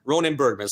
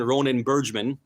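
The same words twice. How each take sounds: First: Bergman said with a hard g, "BURG-man"; hard-g pronunciation. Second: Bergman said with a soft g, "BURJ-man"; soft-g pronunciation. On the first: Host settling on the author's name, Bergman with hard g. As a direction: say Bergman as "BURG-mun", with a firm g. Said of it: "I'll say Bergman". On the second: Host unsure of the author's name, Bergman with soft g. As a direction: say Bergman as "BURJ-mun", with a j sound. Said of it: "I don't know how you pronounce it". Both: Real, not acted.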